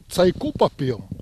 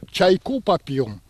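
First: The first word starts with a 'ts' sound. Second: The first word is said with a 'ya' vowel. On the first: This is how people in another village spoke. "А другой деревне через «ц»" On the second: This is how people in one village spoke. "В одном через «я»"

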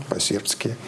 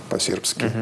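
No difference in how they are said.

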